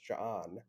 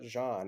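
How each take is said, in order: First: The name has a glottal stop break inside. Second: The name is said smoothly without a break. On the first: "they like pronounce the implied stop" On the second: "so it's not"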